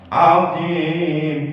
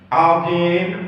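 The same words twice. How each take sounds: First: The long vowel is held for four beats. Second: The long vowel is held for two beats. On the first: "azim empat harakat" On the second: "azim dua, dua harakat"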